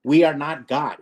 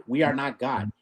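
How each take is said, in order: First: Said in the usual way. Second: "We are not God" echoed softer, sinking low; quiet repeat. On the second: Real, not acted. Host repeating his point softly to sink it in. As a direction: drop it to a hush the second time.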